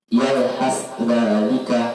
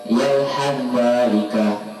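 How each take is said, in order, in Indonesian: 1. Dua konsonan di antara kata-kata itu dibaca terpisah. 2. Dua konsonan itu menyatu menjadi satu bunyi.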